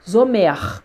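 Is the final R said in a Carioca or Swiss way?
Carioca. The final R is said the Carioca way. "como, né, os cariocas"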